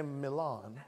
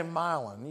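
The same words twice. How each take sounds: First: "Milan" as mi-LAHN, second syllable stressed; slow, lower "Milan", mi-LAHN; Italian-style pronunciation. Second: "Milan" said as MY-lun, first syllable stressed; the un-Italian "Milan", MY-lun; local mispronunciation. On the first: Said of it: "That's the right way to say it". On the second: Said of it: "you don't say Milan". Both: Shown as a demonstration.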